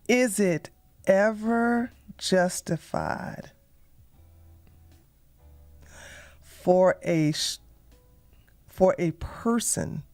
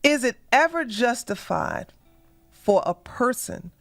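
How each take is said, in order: First: It is spoken very slowly and deliberately. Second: It is spoken at a normal, quicker pace.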